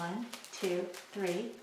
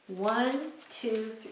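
First: Much softer, almost under-the-breath count; quiet count. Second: Said in the usual way. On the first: Shown as a demonstration. Teacher doing the real shake, counting softly. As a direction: barely voice the count as if not really saying it. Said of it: "Except we don't say one, two, three". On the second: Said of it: "I'm just doing this for instructional purposes".

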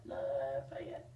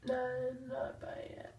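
First: Much lower, slow whisper. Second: Slow whispered correction; whispering. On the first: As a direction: drop the pitch and whisper. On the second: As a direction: whisper it slowly. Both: Real, not acted.

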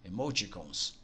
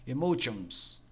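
First: "Emoticons" said quietly and lower as a correction, e-mo-ti-CONS; self-correction. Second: "Emotions" said the Portuguese way, like e-mo-TONS; a hesitant first try at "Emotions"; unsure pronunciation. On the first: Tutor correcting the menu name to viewers, muttered self-correction. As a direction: fix the word as "Emoticons", softly to yourself. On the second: Tutor unsure how to say the English menu name, tentative. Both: Real, not acted. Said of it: "Não sei se a pronúncia correta é essa".

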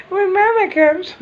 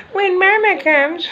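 First: Squeaky high imitation again, slow; high mock wife voice. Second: Squeaky high imitation of the wife, slow; high mock wife voice. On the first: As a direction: echo her answer in the same tiny voice. Repeats the mimic laughing. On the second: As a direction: mimic her answer in a tiny high voice. Mimicking wife's reply, high.

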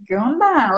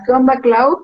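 First: Flat, falling, disapproving echo; unimpressed reply. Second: Breezy, overly familiar greeting, pitch up; mock casual text greeting. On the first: Retold or imitated. Consultant unimpressed by a misspelled message, dry echo. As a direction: let the greeting drop in disbelief. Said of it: "Entonces yo voy a decir". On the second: Reading a sloppy text from a client, mock casual. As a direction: toss it off like a careless text. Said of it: "un mensaje que pongas".

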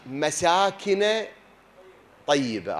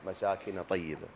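First: Slow, drawn-out Quranic recital of the phrase مساكن; verse recital. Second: Said in the usual way. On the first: Shown as a demonstration. Preacher quoting the verse about heavenly dwellings, drawn-out recital. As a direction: draw out مساكن slowly like reciting scripture.

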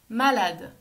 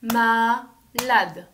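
First: Said in the usual way. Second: "Malade" in two separate loud beats; "Malade" broken slowly into ma, then lade; split into syllables. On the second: Shown as a demonstration. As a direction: clap out "Malade" with a gap after ma. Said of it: "On tape dans les mains".

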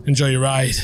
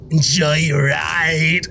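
First: Said in the usual way. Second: Slow, drawn-out, eerie lilt rising at the end; creepy echo of the driver. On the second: Retold or imitated. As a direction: stretch it out like a sinister driver. Echoing the bus driver's line.

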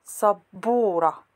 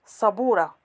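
First: سبورة with a light, plain sīn at the start; correct light s. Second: صبورة with a heavy, emphatic ṣad at the start; wrong emphatic ṣ. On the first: Arabic teacher gives the correct pronunciation, سبورة with a light s. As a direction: say سبورة with a thin, crisp s sound. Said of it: "We say". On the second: Arabic teacher demonstrates the wrong pronunciation, صبورة with a heavy ṣ. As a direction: say صبورة with a thick, dark ṣ sound. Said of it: "We don't say صبورة". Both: Shown as a demonstration.

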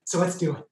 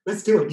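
First: Said in the usual way. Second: Higher and louder, rallying the crowd; pumped-up repeat. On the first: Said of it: "Oh my God". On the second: Shown as a demonstration. Host rallying audience to play lava escape, pumped up.

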